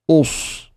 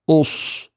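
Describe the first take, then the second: Both takes have the same delivery.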